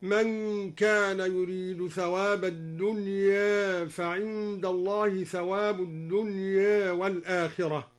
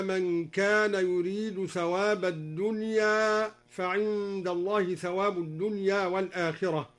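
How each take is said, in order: First: Slightly tilt the final vowel of "الدنيا" toward e, both times; slow chant with "الدنيا" as ad-dunyæ; Duri taqlil. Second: Said in the usual way. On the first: Shown as a demonstration. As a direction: recite "الدنيا" with its last alif halfway between a and e. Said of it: "قلل الدوري الدنيا في الموضعين".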